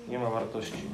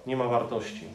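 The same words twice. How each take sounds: First: "Nie ma wartości" repeated softer, letting it sink in; a soft restatement of "Nie ma wartości"; quiet echo. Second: Said in the usual way. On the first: Shown as a demonstration.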